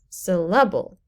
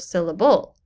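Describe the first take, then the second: First: The stress is on the first syllable. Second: The stress is on a later syllable. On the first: The speaker calls it right. "the first syllable in syllable is said more loudly" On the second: The speaker calls it wrong.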